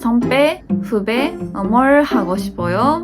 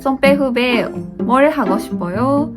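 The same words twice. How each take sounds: First: It is said slowly, with pauses. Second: It is said at a faster pace.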